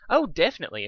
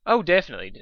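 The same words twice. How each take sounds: First: Fluttershy voice. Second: Said in the usual way. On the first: Acted. Dusk's line mistakenly said in Fluttershy's voice. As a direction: still in the gentle pony voice. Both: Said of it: "I'm still talking in Fluttershy's voice".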